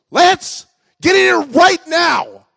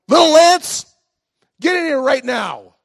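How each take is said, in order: First: Very high, loud, drawn-out yell; angrier grandma shout. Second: High, loud scolding shout; mad grandma yell. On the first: Grandma catches Lance in the ditch twice, furious mock shout. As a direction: bellow each word as a furious grandma, hammed up. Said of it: "now I'm gonna really get it". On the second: Grandma calls Lance in from the ditch, mad yell. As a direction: holler for the child as a cross grandma. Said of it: "she's mad". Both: Retold or imitated.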